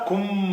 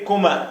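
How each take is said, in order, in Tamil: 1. நடுவில் உள்ள m ஒலி நீட்டி இரட்டித்து ஒலிக்கிறது. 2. நடுவில் உள்ள m ஒலி குறுகியது, ஒற்றை. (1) "சத்து இருந்தா ... அந்த அழுத்தம் கொடுத்து சொல்லணும்" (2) "அந்த சத்து இல்லாட்டி"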